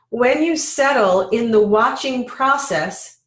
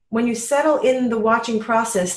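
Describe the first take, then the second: First: The phrase is read at a slow, deliberate pace. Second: The phrase is read at a normal, quicker pace.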